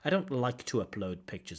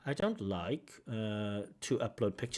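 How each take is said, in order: First: The phrase flows smoothly with 'like to' linked. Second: A hesitation pause breaks the phrase after 'like'. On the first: The speaker calls it right. "one way we can connect our speech is with those infinitive constructions" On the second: The speaker calls it wrong. "our speech can become disconnected while we hesitate"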